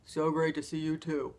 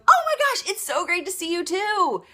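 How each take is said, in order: First: Said in the usual way. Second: Much higher and louder, matching her joy; echoed excitement. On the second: Shown as a demonstration. Coach showing how to echo a friend's joy, beaming. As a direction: throw the excitement right back at her. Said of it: "you echo back what they have".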